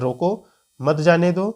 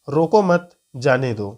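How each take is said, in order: First: There is a pause right after roko. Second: There is a pause right after mat. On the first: Stop the person and do not let them go. "अल्प विराम का को ध्यान में रखकर पढ़ेंगे" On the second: Do not stop the person; let them go. "तो दोनों का अर्थ अलग होता है"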